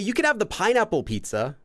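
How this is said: Pineapple rises, falls, then returns to baseline, emphasized. Only the pineapple one is allowed, not the rest. "That intonation, pineapple, pineapple, it goes up and then back down and then back up to the baseline"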